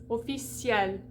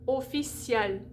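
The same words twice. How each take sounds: No difference in how they are said.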